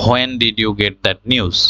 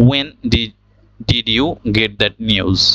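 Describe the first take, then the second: First: "when" said "ho-en", h sounded; slow question with "when" as "hwen"; wrong pronunciation. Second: "when" said "wen", h dropped; slow question with plain w in "when"; correct pronunciation. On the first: Teacher reads the example the mistaken way, "when" with an h. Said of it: "আমরা এখানে ভুল উচ্চারণ করেছি". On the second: Teacher models the correct question, "when" as "wen". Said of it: "এখানে এইচটা বাদ পড়ে গেল". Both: Shown as a demonstration.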